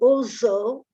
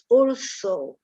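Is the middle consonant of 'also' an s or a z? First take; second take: z; s. First: The middle consonant is a buzzing z sound. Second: The middle consonant is a hissing s sound. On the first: The speaker calls it wrong. "You tend to say also" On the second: The speaker calls it right. "the S is a sweet S, like in snake, not a Z"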